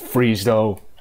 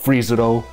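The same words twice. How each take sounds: First: The name is said with two syllables. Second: The name is said with three syllables. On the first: The speaker calls it wrong. "missing out on the middle syllable altogether" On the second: The speaker calls it right. "There's a U in there"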